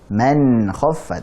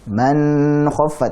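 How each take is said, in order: First: The n sound flows only a little. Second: The n sound is stretched out too long. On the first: The speaker calls it right. "mengalir sedikit sebagaimana sifat tawassut atau bainiyah" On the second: The speaker calls it wrong.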